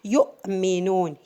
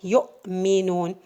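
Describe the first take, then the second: First: The letter is said as a glottal stop. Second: The same.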